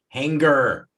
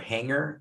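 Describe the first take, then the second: First: The G is pronounced as a hard separate sound. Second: The G is silent, blended into the ng. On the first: "emphasized like the G" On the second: "the normal G, like the silent G"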